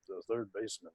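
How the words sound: It is low, gloomy and mournful, like a funeral. The speaker calls it wrong. "like just sounding like death"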